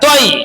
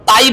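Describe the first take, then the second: First: The syllable is said heavy, with a thick vowel. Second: The syllable is said light, with a thin vowel. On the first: The speaker calls it right. "মোটা করে পড়তে হবে" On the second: The speaker calls it wrong. "তাই বলা যাবে না"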